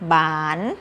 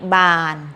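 First: The syllable is said on a rising tone. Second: The syllable is said on a level mid tone. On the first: "ไม้จัตวา" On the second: "บออานอบาน"

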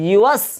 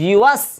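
No difference in how they are said.

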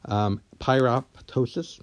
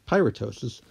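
First: The second p is clearly pronounced. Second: The second p is silent. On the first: The speaker calls it wrong. "you'd be pronouncing it as pyroptosis, which again seems a little funny" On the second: The speaker calls it right. "No, it's pyroptosis, like it is apoptosis"

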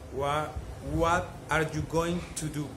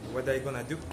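First: Going to is said in full, words separate. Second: Going to is linked and reduced to gonna.

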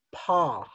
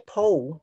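First: The vowel is a plain open aw sound. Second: The vowel glides toward an oo sound. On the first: The speaker calls it right. "There is no u sound at all" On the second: The speaker calls it wrong. "You don't say paw"

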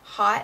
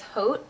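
First: The word sounds like English 'hot'. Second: The word sounds like 'oat', French style. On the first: The speaker calls it wrong. "I always call it Hot and Naughty" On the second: The speaker calls it right. "I think the proper pronunciation is Haute"

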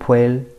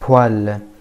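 First: The vowel is said 'wee', giving 'bweel'. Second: The vowel is said 'wa', giving 'bwal'. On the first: The speaker calls it wrong. "ما بتقولوا بويل" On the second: The speaker calls it right. "لا بوال هي هيك بتنقرا"

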